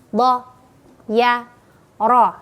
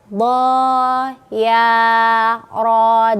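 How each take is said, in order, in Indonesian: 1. Setiap suku kata pendek, satu ketukan. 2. Setiap suku kata dipanjangkan. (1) "Harusnya bo ya ro" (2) "Jadi dia panjang semua padahal bacanya pendek"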